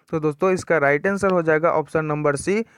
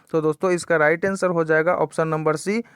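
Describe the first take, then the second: The two takes are said the same way.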